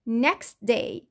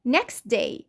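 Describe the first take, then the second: First: The t sound in 'next' is dropped. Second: The same.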